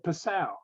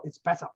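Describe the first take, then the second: First: "Passau" said the American way, stress on the second syllable, flat a. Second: "Passau" with a short open a and the stress on the first syllable, German style. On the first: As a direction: Passau with a drawn-out "sau". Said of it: "The way you say it, the way I say it". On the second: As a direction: correct her with a crisp German "Passau". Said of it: "It's not Passau". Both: Retold or imitated.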